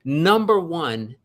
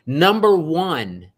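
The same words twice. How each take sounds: The two takes are said the same way.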